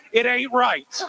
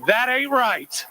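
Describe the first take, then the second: First: "ain't right" in a Kentucky drawl, said with force; Kentucky accent. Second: Slow, drawn-out Kentucky "That ain't right"; Kentucky accent. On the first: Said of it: "in my Kentucky accent". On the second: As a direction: let the Kentucky accent stretch slowly. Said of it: "in those amazing Kentucky accents". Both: Shown as a demonstration.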